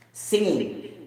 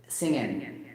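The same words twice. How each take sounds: First: Singing with a clear ng ending; full ing ending. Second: Singing said lower and softer, ending clipped to sing-in; dropped G. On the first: To the viewers, contrasting careful pronunciation. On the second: To the viewers, mimicking the native speaker's version. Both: Shown as a demonstration. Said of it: "They don't mention the letter G at the end".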